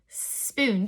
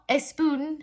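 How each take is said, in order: First: The word starts directly with the s sound. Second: An extra vowel sound comes before the s. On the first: The speaker calls it right. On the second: The speaker calls it wrong. "it's not a spoon"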